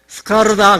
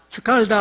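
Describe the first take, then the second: First: The middle consonant is an R sound. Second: The middle consonant is an L sound. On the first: The speaker calls it wrong. "저는 볼 때 스카르다 그랬는데" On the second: The speaker calls it right. "그러지 말고 스칼다 스칼다 할 때 혀를 천장 닿아야 된대요"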